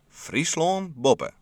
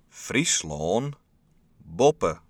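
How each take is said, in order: First: It is said at normal speed. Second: It is said very slowly.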